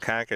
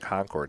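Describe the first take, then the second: First: It is said with a local New England pronunciation. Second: It is said with an outsider's pronunciation. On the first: The speaker is a local. "if you're from the New England area" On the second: The speaker is not from the area. "if you're not from the New England area"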